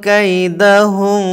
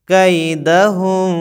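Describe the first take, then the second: The two takes are said the same way.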